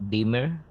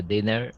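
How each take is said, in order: First: "dimmer" said with a clear m in the middle, as DIM-mer; "dimmer" said carefully as the corrected word, slightly raised; self-correction. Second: "dinner" said with a clear n in the middle, as DIN-ner; "dinner" blurted where "dimmer" was meant, with n; slip of the tongue. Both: Real, not acted.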